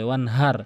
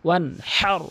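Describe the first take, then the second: First: The h is a light, breathy sound. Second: The h comes from deep in the throat. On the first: The speaker calls it wrong. "এখানে ছোট হাই নিয়ে উচ্চারণ করে" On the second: The speaker calls it right. "হাঁটি হলকের মাঝখান থেকে"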